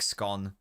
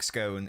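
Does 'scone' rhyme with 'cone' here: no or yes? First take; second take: no; yes. First: The word does not rhyme with cone. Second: The word rhymes with cone. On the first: The speaker calls it wrong. "I don't like how it's pronounced that" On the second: The speaker calls it right. "It's cone with an S"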